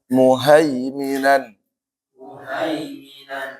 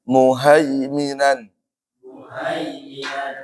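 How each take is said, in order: No difference in how they are said.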